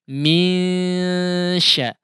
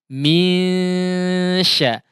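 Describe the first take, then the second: Both takes have the same delivery.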